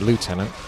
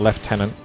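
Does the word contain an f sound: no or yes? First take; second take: no; yes. First: The word is said without an f sound. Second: The word is said with an f sound. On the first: "it makes more sense to say Lieutenant, because there is no F" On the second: "Lieutenant comes across as the pronounced version"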